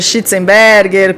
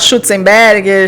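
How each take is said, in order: First: The first vowel sounds like 'i'. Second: The first vowel sounds like 'u'.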